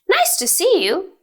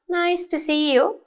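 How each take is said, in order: First: It is said energetically, sounding a bit surprised. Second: It is said flatly, without energy or surprise. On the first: The speaker calls it right. "You have to be energetic and a bit surprised" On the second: The speaker calls it wrong. "not nice to see you. You can't say it with that intonation"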